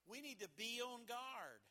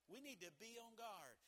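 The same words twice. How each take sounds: First: Firm warning. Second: Said in the usual way. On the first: Acted. Repeated line.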